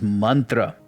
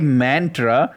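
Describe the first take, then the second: First: The first vowel sounds like the vowel in 'run'. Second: The first vowel sounds like the vowel in 'can'. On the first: This is the original Sanskrit pronunciation. "the original Sanskrit pronunciation is mantra. Man pronounced like run" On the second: This is how people commonly say it. "People say mantra"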